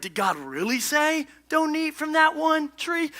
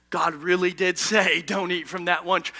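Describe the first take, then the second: First: "Did God really say" raised into a high, slow, doubting question; serpent's question. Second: "God really did say" as a low, certain statement; Eve's firm answer. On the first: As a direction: question "really say", voice held high through "that one tree". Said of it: "puts in that question mark". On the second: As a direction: state "really did say" firmly, pitched down, no question. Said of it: "Eve actually nails the answer". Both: Acted.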